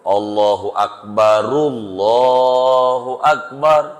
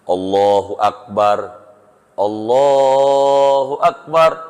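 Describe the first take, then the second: First: The first Akbar flows on with a u vowel. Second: The first Akbar ends in r with a stop. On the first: "rok pertama hidup, doma" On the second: "berhenti roknya... Sukun... roknya mati dua-duanya"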